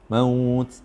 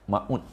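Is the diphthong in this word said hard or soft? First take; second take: soft; hard. First: The diphthong is said softly and gently drawn out. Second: The diphthong is said hard and abruptly. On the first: The speaker calls it right. "Macam mana baca mat lin dengan lembut?" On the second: The speaker calls it wrong. "kalau kita keras, bunyi maut"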